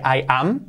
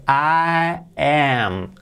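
First: "I am" with a Spanish-like open a in "am"; unchanged plain vowels. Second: "I am" drawn out, with a wide ae in "am"; changed English vowel. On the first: Teacher showing what Skinner doesn't say, open vowel. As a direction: say "am" short, with an ah vowel. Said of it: "Fijaos que no dice". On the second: Teacher showing how Skinner says it, wide vowel. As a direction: stretch "I" and "am", vowel as in cat. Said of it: "¿Cómo cambia?". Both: Shown as a demonstration.

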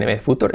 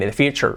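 First: "future" as foo-TOOR; lower, Spanish-style "future" with plain T; wrong Spanish pronunciation. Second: "future" as FYOO-cher; English "future" with CH sound; correct pronunciation. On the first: Retold or imitated. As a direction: imitate a learner misreading "future". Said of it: "La pronuncia bien". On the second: Shown as a demonstration. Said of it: "la dice muy bien".

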